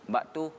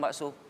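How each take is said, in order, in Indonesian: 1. Kata ini punya bunyi t sebelum u. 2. Kata ini punya bunyi s sebelum o. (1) "baktu, dia bilang itu" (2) "Nggak bisa dia bilang bakso"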